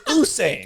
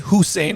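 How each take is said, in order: First: The name starts with a vowel sound. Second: The name starts with an H sound. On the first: The speaker calls it right. "It's Usain" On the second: The speaker calls it wrong. "you don't say Hussein on this episode"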